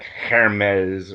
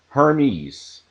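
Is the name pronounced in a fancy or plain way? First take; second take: fancy; plain. First: It has an exaggerated, forced French pronunciation. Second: It has a relaxed, plain English pronunciation. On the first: The speaker calls it wrong. "that just kind of seems forced and, and over emphatic" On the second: The speaker calls it right. "I would prefer um, pronunciations like"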